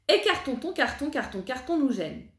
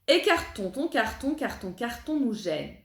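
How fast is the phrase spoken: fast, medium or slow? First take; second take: fast; medium. First: The phrase is spoken quickly. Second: The phrase is spoken at moderate speed. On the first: "On essaye un petit peu plus vite" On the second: "un petit peu plus vite"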